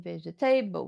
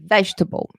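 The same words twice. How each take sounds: First: Vegetable as veh-jeh-TAY-bul; wrong pronunciation. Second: Vegetable in three syllables, VEJ-tuh-bul; correct pronunciation. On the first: Teacher shows what to avoid saying, mispronounced. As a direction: give vegetable a full TABLE ending. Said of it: "instead of saying vegetable". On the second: Teacher gives the correct form, properly pronounced. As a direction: stress the start of vegetable, reduce the ending. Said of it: "we say vegetable". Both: Shown as a demonstration.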